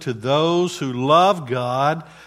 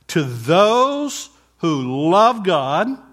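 First: The phrase is read plainly, without emphasis. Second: The phrase is read with strong emphasis.

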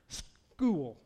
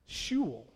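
First: The word is said with a native pronunciation. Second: The word is said with a German pronunciation. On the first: The speaker belongs to the trusted group. "it was pronounced school" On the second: The speaker is an outsider to the group. "But the Germans, schul, they couldn't make out the school sound"

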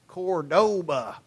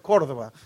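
First: It is said with a Texas accent. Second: It is said with an Argentine Spanish accent.

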